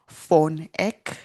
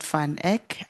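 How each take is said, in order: First: The first word has an 'o' vowel, like 'fon'. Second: The first word has an 'a' vowel, like 'van'. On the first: The speaker calls it right. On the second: The speaker calls it wrong.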